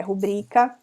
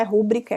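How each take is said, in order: First: Rubrica with the beat moved to BRI; stress on BRI. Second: Rúbrica with RÚ carrying the beat; stress on RU. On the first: Teacher correcting the mistake, rubrica stressed on BRI. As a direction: say rubrica as ru-BRÍ-ca. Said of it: "é rubrica". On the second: Teacher ruling out the mistake, rúbrica stressed on RU. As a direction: say rúbrica as RÚ-bri-ca. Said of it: "Não é rúbrica". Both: Shown as a demonstration.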